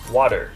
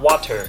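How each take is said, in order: First: The middle consonant is a soft D-like sound. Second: The middle consonant is a crisp T. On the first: The speaker calls it right. "it's water" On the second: The speaker calls it wrong. "is not water"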